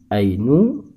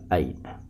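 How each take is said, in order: First: The word ends in a u vowel. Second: The word ends in an a vowel. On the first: The speaker calls it wrong. "tidak boleh dibaca ainu" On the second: The speaker calls it right. "harus dibaca aina"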